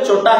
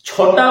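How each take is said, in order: First: The first consonant is plain and unaspirated. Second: The first consonant is breathy and aspirated. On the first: "ଚଟା ହିଁ ବୋଲି କହନ୍ତି" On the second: "ଛଟା ବୋଲି କହ"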